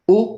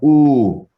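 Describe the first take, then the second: First: The vowel is held very briefly. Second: The vowel is stretched out in time. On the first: "these single vowels are always very short" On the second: "Two of the same vowel means longer"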